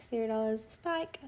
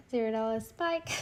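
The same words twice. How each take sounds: The two takes are said the same way.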